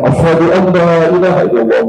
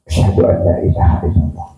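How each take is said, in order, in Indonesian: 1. Frasa itu diucapkan dengan keras dan lantang. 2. Frasa itu diucapkan dengan pelan dan lembut. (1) "Baru berani" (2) "pelan-pelan dulu"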